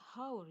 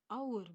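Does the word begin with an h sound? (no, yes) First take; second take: yes; no. First: The word starts with an audible h sound. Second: The word starts with a vowel, no h sound. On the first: The speaker calls it wrong. "bukan hour ya" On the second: The speaker calls it right. "dibacanya hour"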